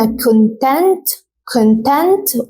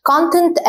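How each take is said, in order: First: ConTENT, second syllable punched; stress on conTENT. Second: CONtent, first syllable punched; stress on CONtent. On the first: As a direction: lean hard on TENT in content. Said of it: "هتركز على الجزء التاني". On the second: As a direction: hit CON in Content. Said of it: "هتركز على أول جزء من الكلمة". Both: Shown as a demonstration.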